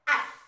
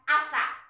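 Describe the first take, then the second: First: It ends on the consonant s. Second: It ends on an extra vowel a. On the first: The speaker calls it right. "bukan asa, tapi as" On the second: The speaker calls it wrong. "bukan asa"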